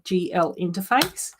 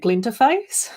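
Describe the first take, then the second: First: The letters G and L are spelled out. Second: The letters blend into one word, glinterface. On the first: "one of the programs that we use at work is a G L interface" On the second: "I kept on calling it a glinterface. Sparklier"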